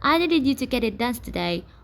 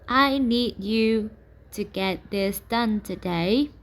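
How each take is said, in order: First: The sentence is spoken very fast. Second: The sentence is spoken very slowly. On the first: The speaker seems rushed and agitated. "if we have a super fast talker" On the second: The speaker seems condescending. "if we slow down that rate of speech"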